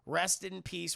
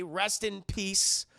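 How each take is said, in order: First: Said in the usual way. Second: Slow, drawn-out rest in peace; a mock-solemn "rest in peace", drawn out; solemn farewell. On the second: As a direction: lay "rest in peace" out slowly like a eulogy. Solemn slow eulogy for Randy.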